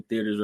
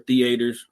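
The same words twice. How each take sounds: First: Said in the usual way. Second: "theaters" said carefully as thee-AY-ters; pointedly proper "theaters", thee-AY-ters; corrected pronunciation. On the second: Shown as a demonstration. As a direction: stretch "theaters" into three syllables, middle one stressed. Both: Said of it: "don't like the way I say that".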